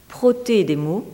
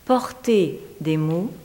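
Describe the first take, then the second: First: "proter" with r straight after p; French wordplay. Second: "Porter" with the r after the vowel; French wordplay. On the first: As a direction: say "proter" in French, r before the vowel. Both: Shown as a demonstration. Wordplay on two similar French words.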